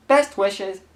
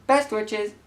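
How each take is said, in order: Both takes have the same delivery.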